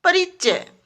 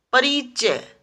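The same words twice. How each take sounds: First: Said in the usual way. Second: परिचय with a long "ee"; परिचय said as परीचय; mispronounced. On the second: Shown as a demonstration. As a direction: stretch the middle of परिचय. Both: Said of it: "परिचय नहीं".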